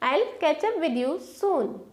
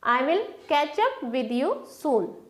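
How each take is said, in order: First: I will is contracted to I'll. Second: I will is said as two full words.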